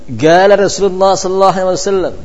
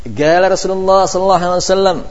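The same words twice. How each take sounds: Both takes have the same delivery.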